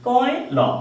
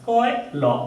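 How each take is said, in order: The two takes are said the same way.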